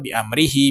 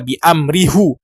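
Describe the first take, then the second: First: The phrase ends with a 'hi' sound. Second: The phrase ends with a 'hu' sound. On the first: The speaker calls it right. "tetapi dia dibaca" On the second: The speaker calls it wrong. "dia tidak dibaca bi amrihu"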